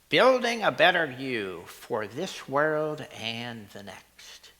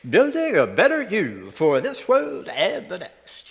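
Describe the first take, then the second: First: It is said in a plain, sincere voice. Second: It is said in a TV announcer voice.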